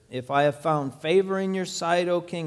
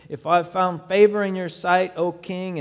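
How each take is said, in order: First: It is read plainly, without strong emotion. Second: It is read with tense, pleading, coaxing emotion.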